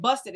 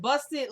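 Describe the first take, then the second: First: Said in the usual way. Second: Scoffing disbelief. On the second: Retold or imitated. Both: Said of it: "that's how she was saying it".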